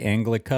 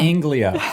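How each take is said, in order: First: A k sound comes before the final vowel. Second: No k sound comes before the final vowel. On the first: The speaker calls it wrong. "Did you just say Anglica" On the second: The speaker calls it right. "It's Anglia. There's no C in it"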